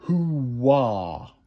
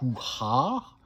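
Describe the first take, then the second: First: A W glide joins the two vowels. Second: A break or h-like catch separates the words. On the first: The speaker calls it right. "je mets comme un W invisible" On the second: The speaker calls it wrong. "au lieu de dire"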